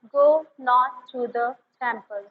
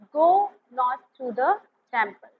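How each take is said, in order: Both takes have the same delivery.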